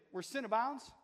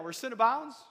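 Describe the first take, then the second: First: Said in the usual way. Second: Louder, rising call for the crowd; excited call-out. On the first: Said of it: "Say this with me". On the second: Shown as a demonstration. Preacher rousing the congregation, louder and excited. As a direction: pump the congregation up. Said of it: "Get excited now".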